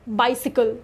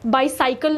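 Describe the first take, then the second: First: The middle syllable sounds like 'si'. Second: The middle syllable sounds like 'sai'. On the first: The speaker calls it right. "नहीं बाइसिकल" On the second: The speaker calls it wrong. "बाइसाइकिल नहीं"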